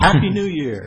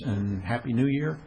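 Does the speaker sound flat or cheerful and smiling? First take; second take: cheerful; flat. First: It is said cheerfully, with a smile. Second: It is said flatly, without a smile.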